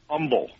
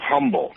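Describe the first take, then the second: First: The word starts without an h sound. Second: The word starts with a clear h sound. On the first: The speaker calls it wrong. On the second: The speaker calls it right.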